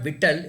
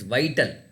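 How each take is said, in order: First: The first vowel is a short 'i' sound. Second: The first vowel is a long 'eye' sound. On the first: The speaker calls it wrong. "it's not vital" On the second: The speaker calls it right. "it is vital"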